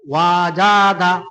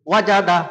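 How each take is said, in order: First: The vowels are drawn out and slow. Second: The vowels are short and said quickly. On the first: The speaker calls it wrong. "এভাবে বললে ভুল হবে" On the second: The speaker calls it right. "তাড়াতাড়ি"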